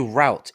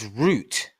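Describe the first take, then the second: First: The word is said the American way. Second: The word is said the English way. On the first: This is how the other group says it. The speaker calls it wrong. "Why do you guys say route?" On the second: This is how the speaker's own group says it. The speaker calls it right. "It's route"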